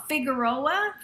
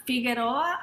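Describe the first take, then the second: First: Said in the usual way. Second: Figueroa with a tapped Spanish r; Spanish-accented Figueroa; Spanish pronunciation. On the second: Shown as a demonstration. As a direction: say Figueroa the Spanish way, "fee-geh-RO-ah". Street name, English then Spanish.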